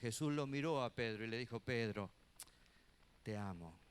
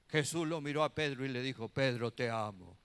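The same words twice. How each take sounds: First: It is acted out with heartfelt, tender emotion. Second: It is said flatly, without acted emotion.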